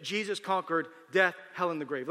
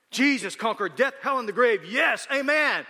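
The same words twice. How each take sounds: First: Said in the usual way. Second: Loud, high, triumphant cry; rousing church cheer. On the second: Acted. Churchgoers cheering a phrase they barely understand, excited. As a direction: cheer it like an amen-shouting congregation.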